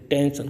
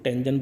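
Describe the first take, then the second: First: The middle consonant is a voiceless 'sh' sound. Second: The middle consonant is a voiced 'zh' sound. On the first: "एस से स" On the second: "एस से स के संग ज भी उच्चारण होता है"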